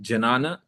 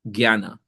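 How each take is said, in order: First: The word begins with a plain 'ja' sound. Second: The word begins with a 'gya' sound. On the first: The speaker calls it wrong. "J means ja" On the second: The speaker calls it right. "actually in Sanskrit it's pronounced as gya"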